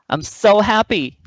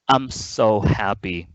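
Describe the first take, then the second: First: The intonation rises overall, sounding happy. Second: The intonation stays flat, without a rise.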